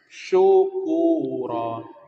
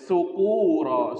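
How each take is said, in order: First: The first sound is a heavy sh sound. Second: The first sound is a light s sound. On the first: It means thanks or gratitude. The speaker calls it right. "Ini harus dibaca tebal" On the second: It means people drunk from alcohol. The speaker calls it wrong. "kalau dibaca tipis"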